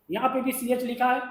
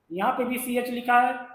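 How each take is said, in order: Both takes have the same delivery.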